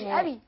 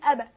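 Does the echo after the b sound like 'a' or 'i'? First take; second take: i; a. First: The echo after the b leans toward 'i'. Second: The echo after the b leans toward 'a'. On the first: The speaker calls it wrong. "لا مش أبي" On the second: The speaker calls it right. "قولي أبا"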